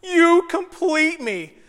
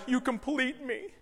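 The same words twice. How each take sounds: First: High, drawn-out mock swooning; stretched, sing-song rom-com parody; mock-romantic. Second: Softly quoted romantic line, lifting at the end; hushed mock-romantic movie quote; movie romance line. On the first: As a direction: ham up the cheesy love line, slowly. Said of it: "The lamest romantic comedy line ever". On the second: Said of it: "that scene from Jerry Maguire".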